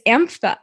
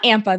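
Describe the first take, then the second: First: The consonant after 'am' is an f sound. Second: The consonant after 'am' is a p sound. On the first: The speaker calls it right. "It's AMPHA" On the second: The speaker calls it wrong. "It's not AMPA though"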